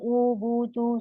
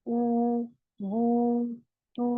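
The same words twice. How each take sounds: First: Each vowel is clipped short and said quickly. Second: Each vowel is stretched for about two counts. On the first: The speaker calls it wrong. "ऐसे नहीं पढ़ना ना" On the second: The speaker calls it right. "हमें दो काउंट खींचना है"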